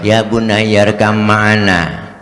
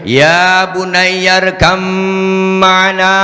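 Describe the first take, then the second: First: It is said flatly, like plain speech. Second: It is called out as if from afar.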